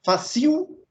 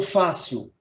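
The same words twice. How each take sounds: First: "Fácil" mis-stressed as fa-CIL, weight on the I; "Fácil" said as fa-CÍU, final syllable stressed; stress on second syllable. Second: Said in the usual way. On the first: Shown as a demonstration. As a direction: put the beat on the last syllable of "Fácil". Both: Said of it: "Fácil vai acento no A ou no I?".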